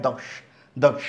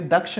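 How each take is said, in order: First: दक्ष ending in a distinct क then श; correct pronunciation. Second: दक्ष with छ for the ending; wrong pronunciation. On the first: Teacher supplies the right reading, correct pronunciation. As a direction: model दक्ष short, k-sh at the end. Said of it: "क्या है?". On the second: Teacher rejects the usual reading, mispronounced. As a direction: say दक्ष the common छ way. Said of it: "ये दक्ष नहीं है". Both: Shown as a demonstration.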